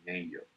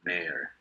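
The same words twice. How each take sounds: First: The word is pronounced the way it is spelled. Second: The word is pronounced differently from its spelling. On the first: The speaker calls it wrong. "Generalmente no se pronuncia mayor" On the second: The speaker calls it right. "se pronuncia mayor"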